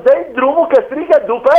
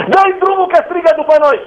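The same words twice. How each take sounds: First: Said in the usual way. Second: Disciples fed up, pushing Jesus; annoyed demand. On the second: Acted. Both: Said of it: "ucenicii au spus".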